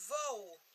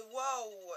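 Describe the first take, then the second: First: "wow" said with a V, as "vo"; "wow" with V in place of W, ending on O; trying a pronunciation. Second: "wow" said with an opening W, drawn down; "wow" starting on W, gliding from A to O; trying a pronunciation. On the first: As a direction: try "wow" as "vow", starting on V. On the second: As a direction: try "wow" as "wao", with a W sound. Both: Shown as a demonstration. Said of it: "vous dites ça comment en anglais".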